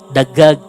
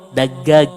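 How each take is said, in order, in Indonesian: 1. Konsonan yang dobel diucapkan dengan bunyi 'g'. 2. Konsonan yang dobel diucapkan dengan bunyi 'g'.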